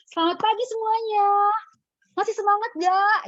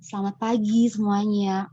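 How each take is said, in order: First: Much higher, loud, rushed MC greeting; fiery energetic opening. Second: Said in the usual way. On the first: Shown as a demonstration. Coach imitating Nadia's typical fired-up opening. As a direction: fire up the crowd. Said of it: "biasanya gaya Nadia". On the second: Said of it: "bisa ngomong".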